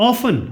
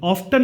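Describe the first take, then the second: First: The word has no t sound. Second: The word has a t sound. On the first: The speaker calls it right. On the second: The speaker calls it wrong.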